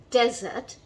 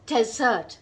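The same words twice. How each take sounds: First: "desert" with the stress on its first half; stress on first syllable. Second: "desert" with the stress on its second half; stress on second syllable. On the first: Teacher showing learners the word for a sandy place, "desert" stressed on the first syllable. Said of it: "stress is on the first half". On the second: Teacher showing learners the word for the sweet course, "desert" stressed on the second syllable. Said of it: "stress is on the second half". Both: Shown as a demonstration.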